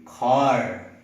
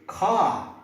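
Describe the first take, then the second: First: Car in an American accent, r clearly sounded; American car ending in a strong r. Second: Car in a British accent, no r sound; British car ending in an open ah. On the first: Teacher showing American car with a sounded r. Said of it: "in American English it should be car". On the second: Teacher showing British car with a silent r. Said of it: "if you're following British English". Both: Shown as a demonstration.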